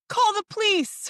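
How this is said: It imitates the little girl's cute voice.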